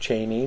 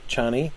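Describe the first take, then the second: First: The first vowel is a long A sound. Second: The first vowel is not a long A sound. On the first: The speaker calls it right. "I think it's a long A" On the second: The speaker calls it wrong.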